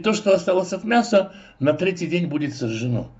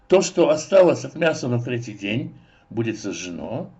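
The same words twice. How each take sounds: First: The pause comes before 'на третий день'. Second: The pause comes after 'на третий день'. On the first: The leftover meat is burned on the third day. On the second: Meat still left over on the third day is burned.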